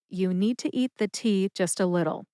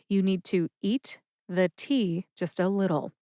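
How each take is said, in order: First: The sentence is spoken at a normal pace. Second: The sentence is spoken at a slower pace.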